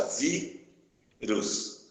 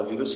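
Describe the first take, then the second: First: "vírus" very slow, held "ví", pause, then "rus"; split into syllables. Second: Said in the usual way. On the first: Shown as a demonstration. Teacher showing where the word divides, syllable by syllable. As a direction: break "vírus" into two separate syllables. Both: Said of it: "se separar as sílabas".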